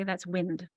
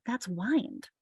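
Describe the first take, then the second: First: "wind" sounded out with a short i, like moving air; sounding out words. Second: "wind" said with a long i, like winding a watch; "wind" rhymes with kind here; corrected pronunciation. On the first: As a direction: read "wind" as the breeze word, short vowel. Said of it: "I sound it out and I say". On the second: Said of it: "that's no longer wind". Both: Shown as a demonstration.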